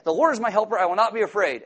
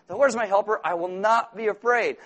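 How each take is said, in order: First: Loud and high, proclaiming it; bold declaration. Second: Loud, high repeating of the verse; repeated declaration. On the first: Preacher urging the anxious to proclaim it. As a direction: declare it with force like a shield. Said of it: "just be like that". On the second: Preacher showing the anxious repeating it. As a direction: say it again and again like a mantra. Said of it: "you won't understand a word you're saying". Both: Shown as a demonstration.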